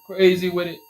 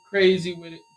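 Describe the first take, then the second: No difference in how they are said.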